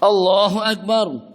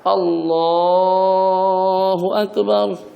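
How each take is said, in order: First: The phrase is said quickly and short. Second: The phrase is stretched out long. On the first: The recitation ends before the movement does. The speaker calls it wrong. "Ada sebagian udah duduk dah" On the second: The recitation fills the whole movement. The speaker calls it right. "kita panjangkan takbirnya"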